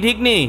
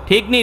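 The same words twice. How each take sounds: The two takes are said the same way.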